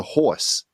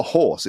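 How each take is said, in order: First: "horse" as "hoi-se", New Jersey style. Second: Said in the usual way. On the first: Shown as a demonstration. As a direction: imitate a little girl's New Jersey "horse". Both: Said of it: "she doesn't call them horse".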